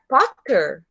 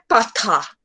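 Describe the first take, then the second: First: It is said with an American accent. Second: It is said with a British accent. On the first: "em vez de pronunciar Potter" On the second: "Essa é a pronúncia deles. E esse é o certo para eles"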